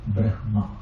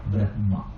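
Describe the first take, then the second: First: The h sound comes before the m. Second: The h sound comes before the m.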